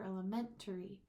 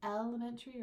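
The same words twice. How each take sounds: First: "elementary" with MEN, the third syllable, punched; stress on MEN. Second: "elementary" with the first syllable EL punched; stress on EL. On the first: Teacher changing the stress, weight on third syllable. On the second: Teacher changing the stress, weight on first syllable. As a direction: hit the start of "elementary". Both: Shown as a demonstration. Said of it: "when you're changing the stress".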